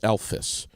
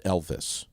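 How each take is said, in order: First: The middle consonant is an f sound. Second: The middle consonant is a v sound. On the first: It names the elf character. The speaker calls it right. "It's Elvis, ... F word" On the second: It names a different person. The speaker calls it wrong. "not Elvis. Two different guys"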